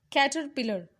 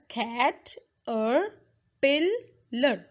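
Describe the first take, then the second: First: Said in the usual way. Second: Caterpillar slowly split as cat, or, pil, lar; four separate beats for cat or pillar; syllable by syllable. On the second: Shown as a demonstration. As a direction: pause between each syllable of cat or pillar. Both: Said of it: "It's pronounced as".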